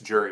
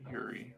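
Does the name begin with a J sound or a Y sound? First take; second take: J sound; Y sound. First: The name begins with a J sound. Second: The name begins with a Y sound. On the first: "it's Jury with a J" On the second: "you can pronounce it Yuri"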